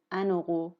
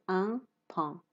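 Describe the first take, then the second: First: ان اوقو with the n carried into اوقو; linked n. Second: ان پان with a clear break, n not linked; no liaison. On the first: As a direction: join ان to اوقو smoothly. (ان اوقو را با اتصال بگو) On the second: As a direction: say ان پان as two separate words. (ان پان بدون اتصال) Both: Shown as a demonstration.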